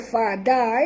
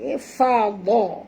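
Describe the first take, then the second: First: The consonant after fa is light and plain. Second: The consonant after fa is heavy and thick. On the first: The speaker calls it wrong. "jangan baca fada" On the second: The speaker calls it right. "Ini huruf dad tebal"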